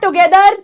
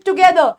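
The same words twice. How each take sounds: First: "together" with the final r fully sounded; wrong pronunciation. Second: "together" as tu-GE-do, final r silent; correct pronunciation. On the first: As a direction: say "together" as tu-ge-DAR, rolling out the r. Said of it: "it is not". ("together" ग़लत, आख़िरी र पूरा बोलकर) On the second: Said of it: "इसकी sound silent". ("together" सही, आख़िरी र silent) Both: Shown as a demonstration.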